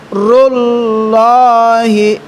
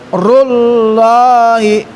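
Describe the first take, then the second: Both takes have the same delivery.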